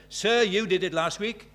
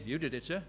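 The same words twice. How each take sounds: First: Cheeky pupil. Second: Said in the usual way. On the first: Retold or imitated. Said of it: "one of the cheeky ones". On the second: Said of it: "here's a boy saying".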